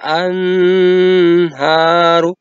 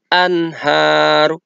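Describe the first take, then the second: First: The n is drawn out with a nasal hum. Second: The n is short and clear, without nasal hum. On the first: The speaker calls it wrong. "Tidak boleh dibaca anharu" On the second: The speaker calls it right. "Dibacanya harus jelas"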